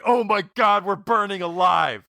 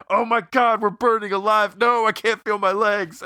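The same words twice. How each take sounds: First: Burning scream. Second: High, loud panicked scream; burning scream. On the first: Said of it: "while going". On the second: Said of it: "he's just so needlessly specific". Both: Retold or imitated. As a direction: scream it like you're on fire.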